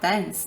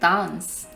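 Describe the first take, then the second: First: It is said with a non-British accent. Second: It is said with a British accent. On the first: British listeners did not understand it. The speaker calls it wrong. "it's not dance" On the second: British listeners understand it. The speaker calls it right. "it's dance"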